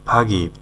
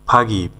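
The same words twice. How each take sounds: No difference in how they are said.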